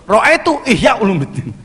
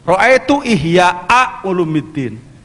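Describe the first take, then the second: First: Ihya ends with no glottal stop at all. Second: Ihya ends with a glottal stop and vowel. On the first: The speaker calls it wrong. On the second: The speaker calls it right.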